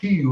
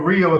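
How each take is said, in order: First: It starts with an H sound. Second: It starts with an English R sound.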